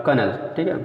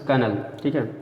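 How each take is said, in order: Both takes have the same delivery.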